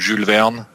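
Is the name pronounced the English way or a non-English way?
non-English. The name is said with non-English pronunciation.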